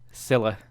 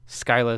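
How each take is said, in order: First: The name is said the English way. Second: The name is said the Greek way. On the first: "Scylla is the English" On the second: "Skyla is the Greek"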